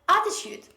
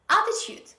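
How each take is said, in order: The two takes are said the same way.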